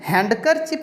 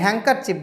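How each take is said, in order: First: A d sound is pronounced after the n. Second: No d sound is pronounced after the n. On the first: The speaker calls it wrong. "हैंडकरचिप नहीं बोलते" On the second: The speaker calls it right. "हैंकरचिप बोलते हैं"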